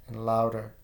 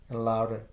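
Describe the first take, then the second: No difference in how they are said.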